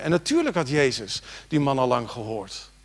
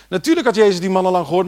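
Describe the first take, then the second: First: Said in the usual way. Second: Louder, higher and fast; emphatic repeat. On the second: Shown as a demonstration. Preacher repeats it to the church, louder and fast. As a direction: hammer it home the second time.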